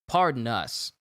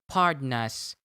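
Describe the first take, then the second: First: It is said in a natural human speaking voice. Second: It is said in a flat, robotic computer voice. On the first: "I'm not going to say it like that" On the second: "it's probably a Siri voice that says"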